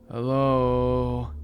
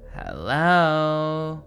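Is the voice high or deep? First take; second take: deep; high. First: It is said in a deep baritone. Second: It is said in a high falsetto.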